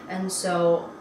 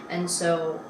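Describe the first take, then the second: The two takes are said the same way.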